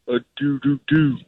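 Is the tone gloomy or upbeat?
gloomy. It sounds gloomy and forlorn.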